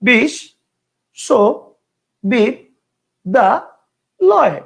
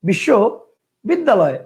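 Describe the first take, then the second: First: The word is broken into five separate parts. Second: The word is broken into two separate parts. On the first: "পাঁচটা" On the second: "দুইটা"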